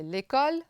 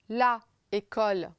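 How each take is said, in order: First: The article's vowel drops and merges with the noun. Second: The article keeps its own vowel before the noun. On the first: The speaker calls it right. "c'est l'école" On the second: The speaker calls it wrong. "c'est pas bien"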